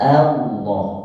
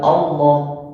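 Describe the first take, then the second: First: The opening a sound is clearly held. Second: The opening a sound is swallowed. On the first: The speaker calls it right. "Jangan sampai hilang sifatnya A" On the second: The speaker calls it wrong. "Bukan Allah"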